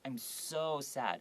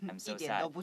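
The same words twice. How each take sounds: First: The word 'so' is stretched out long. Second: The word 'so' is said short and plain. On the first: The sadness is strongly emphasized. The speaker calls it right. "you can make it longer" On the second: The feeling does not come across. The speaker calls it wrong. "If I just said"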